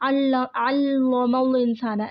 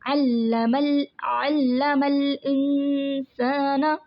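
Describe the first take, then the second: First: The L sound is heavy and thick. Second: The L sound is light and thin. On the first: The speaker calls it wrong. "हम इसको ऐसे नहीं पढ़ सकते ... नो रोंग" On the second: The speaker calls it right. "इसको बारीक पढ़ेंगे"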